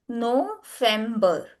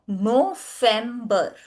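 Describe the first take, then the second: Both takes have the same delivery.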